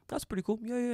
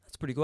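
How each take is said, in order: First: High-pitched echoed approval; mock agreement. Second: Lightly voiced polite approval; a touch of polite interest, near own voice; imitating event guests. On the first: [name] echoing the guests' reply, high mock agreement. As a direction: agree in a much higher voice. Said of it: "I go". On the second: Guests replying to [name]'s introduction, lightly voiced polite approval. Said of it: "And they go".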